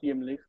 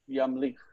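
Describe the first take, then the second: First: The first vowel is an i sound. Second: The first vowel is an a sound. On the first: The speaker calls it wrong. "not yimlich" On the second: The speaker calls it right. "Yamlich, not yimlich, but yamlich"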